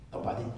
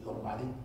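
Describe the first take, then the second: No difference in how they are said.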